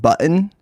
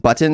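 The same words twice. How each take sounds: First: The middle T becomes a glottal stop. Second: The middle T is clearly pronounced. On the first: The speaker calls it wrong. "they're saying button" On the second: The speaker calls it right. "instead of saying button"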